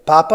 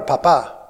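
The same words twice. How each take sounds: First: Papa stressed on the first syllable, PA-pa; Papa with the accent up front. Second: Papa stressed on the last syllable, pa-PA; papa with the accent at the end. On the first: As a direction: say Papa as PA-pa, the potato. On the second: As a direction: say papa as pa-PA, meaning dad. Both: Shown as a demonstration. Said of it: "Just where you put the accent".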